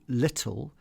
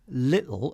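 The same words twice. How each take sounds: First: The middle T is pronounced as a clear T. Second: The middle T is replaced by a glottal stop.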